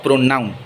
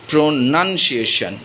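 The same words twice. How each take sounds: First: "pronoun" with a stressed NOUN; mispronunciation. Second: "pronunciation" drawn out with NUN in the middle; correct pronunciation. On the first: Teacher showing the common mistake, "pronoun" with a full noun sound. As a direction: break off the wrong word at "pronoun". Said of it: "not pronoun". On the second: Teacher correcting a common mistake, "pronunciation" with a clear nun. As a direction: say "pronunciation" slowly as pro-NUN-ci-a-tion. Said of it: "they often misspell it". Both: Shown as a demonstration.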